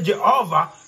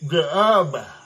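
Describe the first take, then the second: First: The word is said with clear, normal consonants. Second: The word is mumbled as if without teeth. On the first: This is the word he was aiming for. The speaker calls it right. "When he tried to say" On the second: This is how he actually said it. The speaker calls it wrong. "he was a toothless man who could not say Jehovah"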